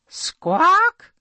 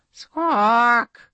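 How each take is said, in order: First: High squawk from the princess; bird squawk. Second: A princess faking a bird call; bird squawk. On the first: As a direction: imitate a bird's cry, loud and high. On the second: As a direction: squawk in a strange voice. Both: Acted.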